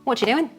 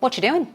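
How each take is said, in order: First: Words are dropped and squeezed into a casual blur. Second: The same.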